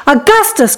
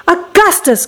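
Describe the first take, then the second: First: Mild fatherly call, raised in pitch; crying out. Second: Higher-pitched motherly call, mildly alarmed; crying out. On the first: Father echoes the mother's call, mildly crying out. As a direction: call to the boy, slightly less high. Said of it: "cried Mister Gloop". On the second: Mother calls to her greedy son, crying out. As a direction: call out the boy's name in mild alarm. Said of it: "cried Missus Gloop". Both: A narrator's reading.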